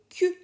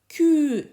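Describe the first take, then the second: First: The vowel at the end is short. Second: The vowel at the end is long. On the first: "S'il n'y a pas de U" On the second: "S'il y a de U"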